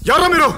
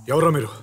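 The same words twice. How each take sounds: First: Loud, high-pitched demand; alarmed shout. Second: Said in the usual way. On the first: Acted. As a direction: shout it at your abductors. Captive shouts at his abductors. (గట్టిగా అరుస్తూ నిలదీయడం)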